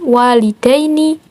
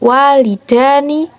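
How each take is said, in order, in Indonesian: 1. Akhiran itu memiliki bunyi 'ai' sebelum n. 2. Akhiran itu memiliki bunyi 'a' biasa sebelum n. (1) "Yang benar menggunakan ya walidaini" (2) "Itu salah"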